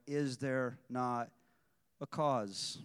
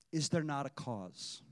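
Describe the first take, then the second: First: "Is there not" slowed down and weighted, then "a cause?" landing down; emphatic, slow. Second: Said in the usual way. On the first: Shown as a demonstration. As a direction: underline every word of "Is there not a cause?". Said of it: "Underline that, highlight it, underscore it". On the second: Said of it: "Underline that".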